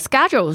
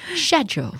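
First: It is said with an American accent. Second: It is said with a British accent.

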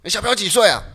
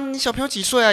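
First: It sounds harsh and stern. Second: It sounds warm and friendly.

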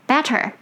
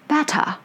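First: It is said with an American accent. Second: It is said with a British accent. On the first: "American way" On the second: "British way"

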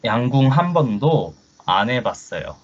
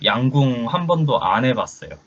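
First: It is said slowly. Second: It is said at normal speed.

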